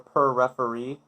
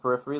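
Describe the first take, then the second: First: It sounds like the words 'per referee'. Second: It begins like the word 'peripheral'. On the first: "like a dollar per referee" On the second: "like peripheral vision"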